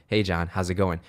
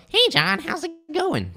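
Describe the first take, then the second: First: Said in the usual way. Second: Very high, squeaky hello; hammed-up falsetto sales greeting; exaggerated greeting. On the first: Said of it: "how I normally am". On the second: Shown as a demonstration. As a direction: overdo it in a comically high voice. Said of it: "I'm kinda exaggerating it".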